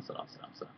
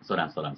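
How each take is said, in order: First: Breathy whispered repeat, very soft; whispering. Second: Said in the usual way. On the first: Real, not acted. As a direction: whisper it under your breath.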